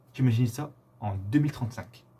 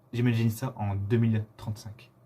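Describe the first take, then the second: The two takes are said the same way.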